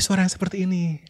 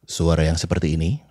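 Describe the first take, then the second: First: The voice sounds soft and dreamy. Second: The voice sounds firm and authoritative. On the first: It speaks of dreams. "suara yang seperti ini berbicara tentang mimpi" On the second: It conveys authority. "kita bisa mengasosiasikan suara yang seperti ini dengan otoritas"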